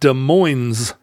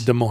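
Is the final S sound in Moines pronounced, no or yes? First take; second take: yes; no. First: The final S of Moines is pronounced. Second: The final S of Moines is silent. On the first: This is the local way of saying it. "where we don't pronounce the S on the days, but we do pronounce the S at the end" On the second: This is how people in Iowa say it. "they don't pronounce either S"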